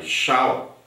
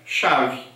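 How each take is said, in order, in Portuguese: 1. A palavra termina com som de L. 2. A palavra termina com som de V. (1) "a gente mistura aí português com inglês" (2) "pronuncia-se, na verdade, chave"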